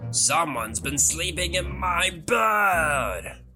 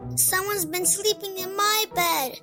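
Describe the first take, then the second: First: It is roared in a booming Daddy Bear voice. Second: It is squeaked in a high Baby Bear voice.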